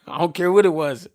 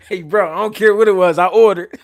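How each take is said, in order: First: Said in the usual way. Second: Louder, punching the point home; loud, emphatic repeat of the punchline. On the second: Real, not acted. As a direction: belt it out to make the point.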